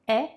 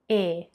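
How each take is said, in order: First: The vowel is open, with the mouth wider. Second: The vowel is closed, with the mouth narrower.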